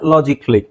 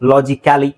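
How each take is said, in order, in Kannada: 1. -cally ಅಂತ್ಯವನ್ನು ಚಿಕ್ಕದಾದ 'kli' ಆಗಿ ಕಡಿಮೆ ಮಾಡಲಾಗುತ್ತದೆ. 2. -cally ಅಂತ್ಯವನ್ನು ಒಂದು ಪೂರ್ಣ ಉಚ್ಚಾರಾಂಶವಾಗಿ ಹೇಳಲಾಗುತ್ತದೆ. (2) "ಅಂತ ಹೇಳೋ ಅವಶ್ಯಕತೆ ಇಲ್ಲ"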